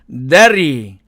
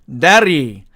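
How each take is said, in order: The two takes are said the same way.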